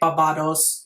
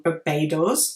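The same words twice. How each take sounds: First: It is pronounced the German way. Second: It is pronounced the English way. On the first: "in Germany we say" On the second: "I think that's how you say it in English"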